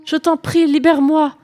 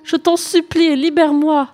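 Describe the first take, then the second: First: Higher and louder, begging in fright; pleading. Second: Higher still, louder, begging harder; desperate pleading. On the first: Captive sea princess begging the knight, frightened plea. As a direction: beg to be set free. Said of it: "s'écria en se débattant". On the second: Princess imploring the knight again, more desperate plea. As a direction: plead even more urgently. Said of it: "l'implora une nouvelle fois". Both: Acted.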